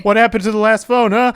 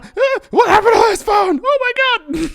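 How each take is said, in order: First: High, loud demanding Santa; angry Santa. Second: Very high, full-volume screaming Santa; furious Santa shout. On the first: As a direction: confront the kid about the phone. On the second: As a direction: lose it at the kid. Angry Santa interrogates. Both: Acted.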